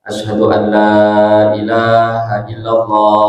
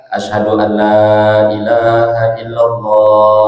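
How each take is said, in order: The two takes are said the same way.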